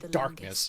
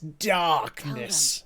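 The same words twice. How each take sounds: First: The word is said flatly, without drama. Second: The word is said with heavy dramatic weight. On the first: The speaker calls it wrong. "You can't just say darkness" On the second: The speaker calls it right. "It's darkness"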